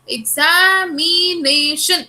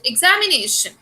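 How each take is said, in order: First: The word is said slowly, taking time. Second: The word is said at a normal speed. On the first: "if I'm taking time" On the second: "I speak it"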